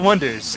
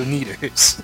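First: The name starts with a wuh sound. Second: The name starts with an oh sound. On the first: The speaker calls it right. "But it's the Wonders" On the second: The speaker calls it wrong. "It looks like the O'Neaters"

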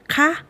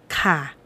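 First: The particle is said with its question tone. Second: The particle is said with its statement tone. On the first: It politely ends a question. "is used in the question sentence" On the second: It politely ends a statement. "is used to the usual sentence"

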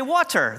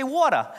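First: It is said in a standard accent. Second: It is said in a New York accent.

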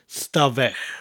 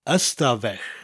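First: The word starts directly with an s sound. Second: The word starts with a short vowel sound. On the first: This is the usual form in conversation. "The Y is dropped and it becomes stafell" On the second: This is the full form of the word. "There's actually a Y in front of the word"

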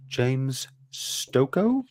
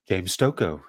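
First: It is said unsurely, like a question. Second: It is said confidently, like a statement.

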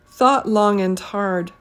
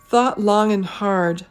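First: The word 'and' sounds like 'end'. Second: The word 'and' is reduced to a bare n. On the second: "It's usually pronounced as n"

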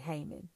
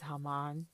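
First: The name has an American Texan pronunciation. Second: The name has a non-American pronunciation. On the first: "in Texas, we just say Haman" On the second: "the correct way to say his name is Haman"

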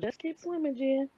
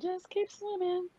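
First: It is said in her normal voice. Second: It is said in a Dory impression.

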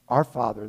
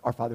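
First: The words are said at a slow pace. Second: The words are rushed out very fast. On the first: The prayer is said thoughtfully. The speaker calls it right. "I'm like" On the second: The prayer is rattled off without thought. The speaker calls it wrong. "it was like they were supersonic"

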